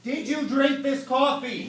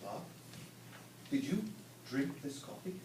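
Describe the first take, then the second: First: Slower, with DRINK stressed; slow emphatic repeat. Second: Much softer and lower, almost under breath; conspiratorial hush to coworker; hushed question. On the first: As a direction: lean on the word drink as you repeat. Repeats after "What?. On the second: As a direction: ask it like a secret. Secretive question, Bob says what. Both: Acted.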